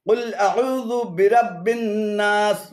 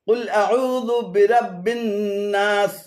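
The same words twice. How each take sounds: First: Dhu stays with a'u before the break. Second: The same.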